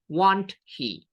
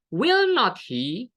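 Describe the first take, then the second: First: The tag is said as two contracted words. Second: The tag is said as three full words. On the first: "saya singkat menjadi"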